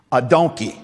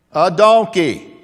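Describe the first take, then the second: First: Said in the usual way. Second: "A donkey." drawn out and louder; stretched, emphatic donkey; slow loud punch on donkey. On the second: Shown as a demonstration. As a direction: lean hard on "donkey". Repeats louder, slower.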